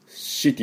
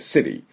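First: The word begins with an 'sh' sound. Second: The word begins with an 's' sound. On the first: The word takes on a dirty meaning. The speaker calls it wrong. "city じゃなくて" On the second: The word means a town. The speaker calls it right. "死じゃなくて、s に近い"

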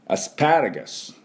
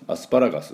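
First: The 'pa' syllable is strongly stressed. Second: All syllables are said flat and even. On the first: The speaker calls it right. "いかにもこう外人が喋ってる感じ" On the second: The speaker calls it wrong. "アスパラガスって言ってもはって言われたりしますから"

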